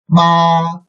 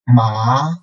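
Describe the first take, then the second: First: It is said with the first tone. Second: It is said with the second tone. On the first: "under the first tone" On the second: "second tone"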